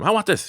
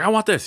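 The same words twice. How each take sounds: First: Put-on spoiled kid demanding. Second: Put-on high, louder spoiled child; spoiled kid demanding. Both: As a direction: whine it like a greedy kid.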